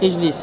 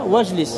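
First: The opening vowel is pronounced at the start. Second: The opening vowel is dropped after the linking word. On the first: "C'est que Hamza al-Wasl, au début d'une phrase, on prononce" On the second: "Tu ne le prononces pas"

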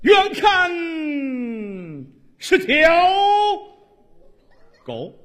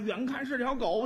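First: It is said in a resonant, theatrical recitation voice. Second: It is said in a plain, everyday comic voice. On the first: "你按话剧朗诵说这段死狗" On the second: "你说相声啊"

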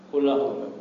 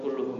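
First: The vowel after the double L is a. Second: The vowel after the double L is u. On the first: The speaker calls it right. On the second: The speaker calls it wrong. "Ini bagusnya bukan kulluhum ya"

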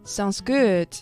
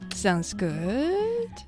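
First: It is said plainly, with no negative tone. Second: It is said hesitantly, with a questioning tone. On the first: It is simply an agreement. "There's no negative intonation" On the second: Something is left unsaid. "Or a little bit of question in there"

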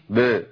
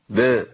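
Both takes have the same delivery.

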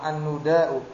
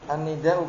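First: The vowel after the n is u. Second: The vowel after the n is i.

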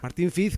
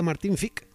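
First: The surname ends in the usual z sound. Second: The surname ends in a k-like sound.

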